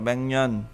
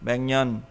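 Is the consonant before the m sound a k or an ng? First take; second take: ng; ng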